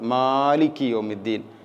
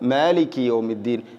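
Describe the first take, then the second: First: The m sound is stretched out long. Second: No sound is stretched out long. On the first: The speaker calls it wrong. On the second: The speaker calls it right.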